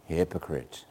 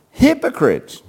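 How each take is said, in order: First: Hypocrites breathed soft and low; nice soft voice. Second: Sharp raised hypocrites, higher; forceful rebuke. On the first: Preacher mocking a gentle Jesus, soft. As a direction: say hypocrites gently, almost whispered. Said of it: "in a nice, soft voice". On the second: Preacher showing how Jesus rebuked. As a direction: call out hypocrites hard. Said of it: "how do you think Jesus said that". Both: Shown as a demonstration.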